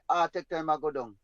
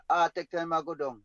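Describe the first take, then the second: No difference in how they are said.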